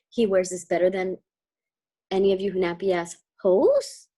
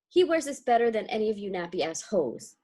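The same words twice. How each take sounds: First: It is said as a rising question. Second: It is said as a flat falling statement.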